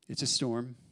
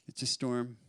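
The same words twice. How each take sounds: The two takes are said the same way.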